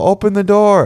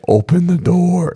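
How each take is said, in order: First: It is said in a normal, pleading voice. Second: It is said in a shifted, scary voice.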